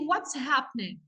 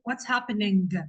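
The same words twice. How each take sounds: First: The final G sound is dropped. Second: The final G sound is clearly pronounced. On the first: The speaker calls it right. "we don't pronounce the G... we say" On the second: The speaker calls it wrong. "ما نجيش ننطق الجي ما نقولش"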